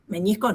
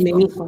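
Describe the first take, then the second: First: The middle consonant is an ny sound. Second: The middle consonant is a plain n. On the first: The speaker calls it wrong. "no digan con ñ" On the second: The speaker calls it right. "meniscos, con N"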